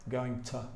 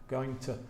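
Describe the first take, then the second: No difference in how they are said.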